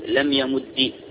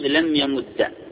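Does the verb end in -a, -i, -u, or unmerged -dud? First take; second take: -i; -a. First: The verb ends with a short i vowel. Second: The verb ends with a short a vowel.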